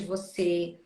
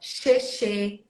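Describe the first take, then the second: First: It starts with 'v' and then an 's' sound. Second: Both syllables start with a 'sh' sound. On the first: This is the standard form of the word. The speaker calls it right. "em vez de você" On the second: This is how a young child mispronounced it. The speaker calls it wrong. "Ele falava xexê"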